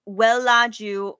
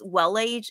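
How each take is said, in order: First: The name is pronounced the Korean way. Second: The name is pronounced the English way. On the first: "that's how you pronounce it in Korean" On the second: "I think it's Wellage in English"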